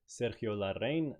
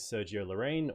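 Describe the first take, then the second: First: The name is said with a Spanish accent. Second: The name is said with an English accent.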